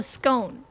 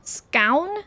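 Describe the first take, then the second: First: "scone" with a long o like "stone". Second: "Scown" rhymed with down. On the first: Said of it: "It's posh Londoners". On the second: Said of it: "Oh, scone". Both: Shown as a demonstration.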